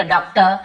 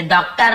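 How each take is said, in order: First: "डॉक्टर" ending in a plain vowel, no R; silent R. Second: "डॉक्टर" with a full final R; R pronounced. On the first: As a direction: say "डॉक्टर" as "dok-tuh". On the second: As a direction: say "डॉक्टर" sounding out the R at the end. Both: Shown as a demonstration. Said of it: "जैसे डॉक्टर नहीं बोलते".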